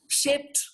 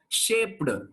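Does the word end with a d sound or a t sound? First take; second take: t sound; d sound. First: The ending is a voiceless t sound. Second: The ending is a voiced d sound. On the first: The speaker calls it right. "Make it voiceless" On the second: The speaker calls it wrong. "You should not pronounce"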